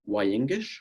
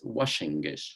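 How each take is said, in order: First: The middle consonant is a y sound. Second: The middle consonant is a sh sound. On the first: The speaker calls it right. "this is the way you say hello" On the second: The speaker calls it wrong. "in Argentina, this the, is read Washengish"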